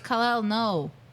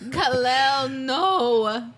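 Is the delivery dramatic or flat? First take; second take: flat; dramatic. First: It is said flatly, with little emotion. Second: It is said dramatically, with strong emotion. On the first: "she basically goes" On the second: "you gave way more acting"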